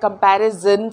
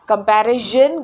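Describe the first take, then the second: First: The consonant is a plain 'z' sound. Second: The consonant is a soft 'zh' sound. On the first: The speaker calls it right. "कंपैरिजन सही है" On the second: The speaker calls it wrong. "कंपैरिजन गलत है"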